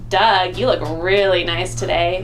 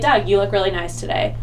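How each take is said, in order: First: It is said in a suggestive, flirtatious tone. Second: It is said in a plain, friendly tone. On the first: It hints at romantic or sexual interest. The speaker calls it wrong. "and give him some eyes" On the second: It is a simple, friendly compliment. The speaker calls it right. "that's nice of me"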